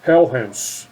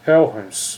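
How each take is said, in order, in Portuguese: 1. O nome soa parecido com Helhens. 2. O nome soa parecido com Helhens.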